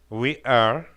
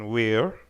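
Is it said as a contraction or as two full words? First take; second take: two words; contraction. First: Two full words, we and are. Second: One contracted syllable, we're. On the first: "We are lo convertimos en we're" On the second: "lo convertimos en we're"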